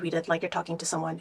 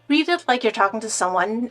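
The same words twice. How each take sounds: First: It is read in a stiff, flat manner. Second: It is read in a natural, conversational manner. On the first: The speaker calls it wrong. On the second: The speaker calls it right.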